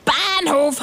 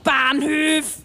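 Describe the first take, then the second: First: "Bahnhof" with a clear o, slow; correct pronunciation. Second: "Bahnhöf" with an ö, slow; mocking mispronunciation. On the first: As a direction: say "Bahnhof" slowly with a plain o. ("Bahnhof" langsam mit klarem o) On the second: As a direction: mimic the wrong "Bahnhöf" slowly. ("Bahnhöf" langsam mit ö nachgeäfft) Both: Shown as a demonstration. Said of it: "Bahnhof heißt das, nicht Bahnhöf".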